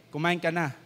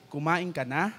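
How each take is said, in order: First: "Kumain ka na." with a falling end so it sounds angry; mildly stern falling statement. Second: "Kumain ka na?" rising on the final na; rising tune, a caring question. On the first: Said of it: "akala niya, galit". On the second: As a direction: let "Kumain ka na?" rise at the end, gently asking. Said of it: "ang gustong sabihin". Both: Shown as a demonstration.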